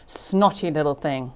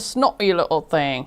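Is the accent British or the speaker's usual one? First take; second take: usual; British. First: It is said in the speaker's usual accent. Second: It is said in a put-on British accent.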